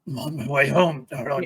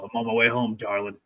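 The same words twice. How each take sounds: First: It sounds strained and pained, like he's hurt. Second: It sounds confident and heroic, without pain.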